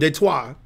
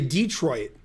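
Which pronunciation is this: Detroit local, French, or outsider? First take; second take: French; outsider. First: It is said with a French pronunciation. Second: It is said the way outsiders say it. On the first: "the correct pronunciation" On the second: "If you're not from Detroit, you say Detroit"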